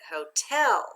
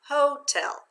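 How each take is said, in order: First: The stress is on the second syllable. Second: The stress is on the first syllable. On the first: The speaker calls it right. "Let's try changing the accent" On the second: The speaker calls it wrong. "Let's read it with the accent"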